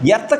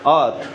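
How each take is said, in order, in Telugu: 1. మొదటి అచ్చు 'e' లాగా ఉంటుంది. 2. మొదటి అచ్చు 'a' లాగా ఉంటుంది. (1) "ఎర్త్ కాదు" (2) "అర్త్ అర్త్ అర్త్ అర్త్"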